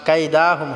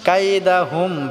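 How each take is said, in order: First: The 'da' vowel is drawn out long. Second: The 'da' vowel is kept short. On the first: The speaker calls it wrong. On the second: The speaker calls it right.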